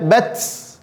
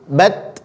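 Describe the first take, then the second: First: The word ends with a th-like hissing sound. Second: The word ends with a clean t sound. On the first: The speaker calls it wrong. "Jadi jangan dibaca bats" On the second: The speaker calls it right. "Tapi di dalam dia"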